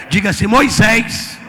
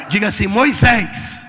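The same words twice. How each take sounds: Both takes have the same delivery.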